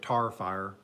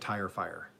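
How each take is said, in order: First: Tire and fire sound like tar and far. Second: Tire and fire keep their full vowel sounds.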